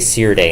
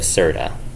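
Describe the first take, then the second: First: The e vowel sounds hard, not soft. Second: The e vowel sounds very soft. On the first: "you're supposed to say Sirde" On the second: "I definitely say it with like very soft e's"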